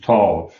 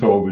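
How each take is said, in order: First: The vowel is an open ah-like sound. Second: The vowel is a long O sound. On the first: "They do it with an ah kind of O" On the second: "instead of with a long O"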